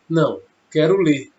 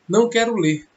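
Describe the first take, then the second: First: There is a pause after não. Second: It is said without a pause after não.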